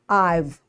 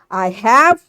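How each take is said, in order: First: The two words are contracted into one syllable. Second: Both words are said fully and separately. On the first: "weak form" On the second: "strong form"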